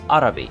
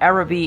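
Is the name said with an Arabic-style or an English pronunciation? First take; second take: Arabic-style; English. First: The name is said with an Arabic-style pronunciation. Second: The name is said with an English pronunciation. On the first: "assume the actual pronunciation is" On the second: "is certainly the English pronunciation"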